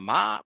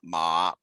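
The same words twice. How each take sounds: First: The pitch rises from middle to high. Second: The pitch dips low then rises. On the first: "a rising tone" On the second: "a falling rising tone"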